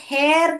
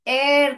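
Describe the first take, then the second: First: The word starts with an h sound. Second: The word starts with a vowel sound. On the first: The speaker calls it wrong. "इसको हेयर करके नहीं पढ़ते बेटा" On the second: The speaker calls it right. "एयर करके पढ़ते हैं। जो हेच है साइलेंट है।"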